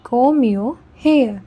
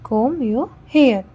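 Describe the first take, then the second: No difference in how they are said.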